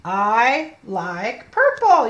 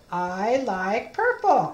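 First: Put-on very slow, each word laid out for a child; slow model reading. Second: Slow reading. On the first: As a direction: read it slowly so the child can follow. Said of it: "You read it". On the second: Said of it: "read the story with me". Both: Shown as a demonstration.

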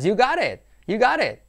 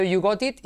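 First: "you got it" as "yu-GA-ret", high pitch jump on GA; lively, linked "you got it", T turned to a tap; linked spoken form. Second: "you got it" with a clear T in "got"; spell-out reading of "you got it", hard T's; as written. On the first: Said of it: "escrito you got it y es". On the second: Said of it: "escrito you got it". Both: Shown as a demonstration.

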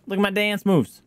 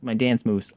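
First: High excited show-off. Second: Said in the usual way. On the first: Real, not acted. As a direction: proudly show off, voice up.

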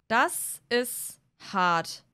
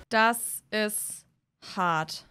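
No difference in how they are said.

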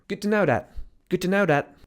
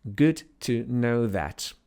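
First: Higher "Good to know that" rattled off; quick casual phrase. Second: "Good to know that" very slowly, each word apart; slow clear repeat. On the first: Teacher testing students with a fast "Good to know that". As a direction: toss it off fast. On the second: Teacher slowly repeating "Good to know that" for students. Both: Shown as a demonstration. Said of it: "Co ja powiedziałem?".

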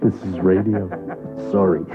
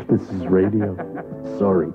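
Both takes have the same delivery.

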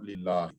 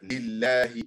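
First: Lillahi with a heavy full-mouth lam; wrong lillahi. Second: Lillahi said slowly with a light, empty-mouth lam; correct lillahi. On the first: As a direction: say lillahi with a thick, dark lam. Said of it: "not lillahi". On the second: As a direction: say lillahi with a thin lam, drawn out. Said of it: "But like lillahi, not lillahi". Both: Shown as a demonstration.

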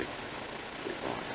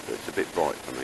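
First: Slow whispered "A bit bright", stretched out under the breath; whispered aside. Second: Said in the usual way. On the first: Real, not acted. Muttered repeat of remark.

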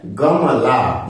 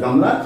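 First: गमला stretched very slowly; teacher sounding out गमला slowly for learners. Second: Said in the usual way. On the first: Shown as a demonstration. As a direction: draw out गमला for the class. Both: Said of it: "ग से क्या बनता है?".

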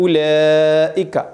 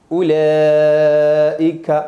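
First: उलैइका drawn out very slowly, each syllable clear; slow recitation. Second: उलैइका stretched very slowly and a bit louder; slow loud recitation. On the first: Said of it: "ये हमज़ा किस तरह लिखा?". (उलैइका धीरे तिलावत) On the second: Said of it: "पढ़ना कैसे?". (उलैइका खींचकर तिलावत) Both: Shown as a demonstration.

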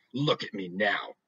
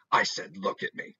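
First: Slow, menacing mother's command; slow, cold threat that means business; death voice. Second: A hint of a low, menacing mother; lightly voiced warning that means business; death voice. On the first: Acted. Mother giving her final warning, slow and menacing. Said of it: "the voice that means business". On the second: Mother ordering her daughter to look at her, low menace. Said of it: "This is the death voice".

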